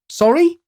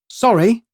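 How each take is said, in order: First: The word rises at the end like a question. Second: It is light, with nervousness on the second syllable. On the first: It is asked as a question. The speaker calls it wrong. "I took the question out of it" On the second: It shows fragility and vulnerability. The speaker calls it right. "with a lighter inflection"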